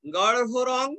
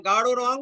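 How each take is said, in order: First: গাঢ় রং with a heavy h after the r; stiffly exact গাঢ় রং; over-careful pronunciation. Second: Said in the usual way. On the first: Shown as a demonstration. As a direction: labour the aspirated ঢ় in গাঢ়, then রং. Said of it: "এরকম বলবে?". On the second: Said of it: "স্বাভাবিকভাবে উচ্চারণ করবে".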